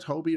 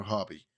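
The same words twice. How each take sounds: First: "Hobie" with a long O, like hope; long-o pronunciation. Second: "Hobby" with a short O, like hot; short-o pronunciation. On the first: Reviewer unsure of the character's name, trying "Hobie" with long O. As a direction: say "Hobie" as HOE-bee. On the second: Reviewer unsure of the character's name, trying "Hobby" with short O. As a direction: say "Hobby" as HOB-ee. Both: Shown as a demonstration. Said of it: "is it Hobie or Hobby".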